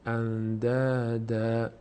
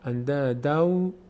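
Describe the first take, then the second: First: The word ends in a long A sound. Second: The word ends in an O sound. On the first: The reciter stops after this word. "اگر اینجا وقف کنیم میشه اندادا" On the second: The reciter continues into the next word. "به جای نون میگیم واو"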